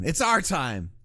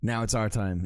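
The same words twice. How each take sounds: First: Mock rallying cry. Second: Said in the usual way. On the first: Streamer quoting a movie line, mock rallying cry. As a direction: proclaim it like a movie hero.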